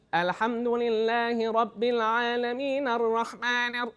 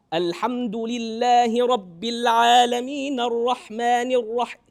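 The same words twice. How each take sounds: First: Higher, slow chant left up in the nose; drawn-out nasal Arabic recitation, not pushed down. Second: Louder, slow open chant without nasal ring; sound pushed down. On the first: Teacher showing students the faulty way, nasal slow chant. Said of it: "hear the nasalization going crazy". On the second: Teacher showing the fix for nasalization, loud pushed-down chant. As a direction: recite slowly, higher and full, sound driven down. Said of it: "if I push the sound down". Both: Shown as a demonstration.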